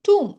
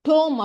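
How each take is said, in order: First: The vowel is a long 'oo' sound. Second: The vowel is a rounded 'oh' sound. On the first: The speaker calls it right. "இதோட pronunciation டூம்" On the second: The speaker calls it wrong. "டோம் அப்படின்னு படிச்சிடக்கூடாது"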